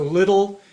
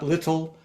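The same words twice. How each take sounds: First: The middle consonant sounds like a soft D. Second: The middle consonant is a crisp aspirated T. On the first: The speaker calls it right. "it's like a D in the middle or an unaspirated T" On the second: The speaker calls it wrong. "not little"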